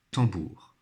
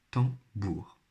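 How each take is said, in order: First: Said in the usual way. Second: "Tambour" broken into tam, then bour; syllable by syllable. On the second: Shown as a demonstration. Teacher sounding out a word for pupils, syllable by syllable. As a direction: say "Tambour" in two separate beats. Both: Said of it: "colorier là où les syllabes".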